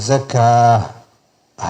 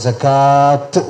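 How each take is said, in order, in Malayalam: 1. വാക്ക് 'h' ശബ്ദത്തിൽ അവസാനിക്കുന്നു. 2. വാക്ക് 't' ശബ്ദത്തിൽ അവസാനിക്കുന്നു. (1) "സക്കാ ഹ എന്നാ പറഞ്ഞത്" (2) "അത് തെറ്റാണ്"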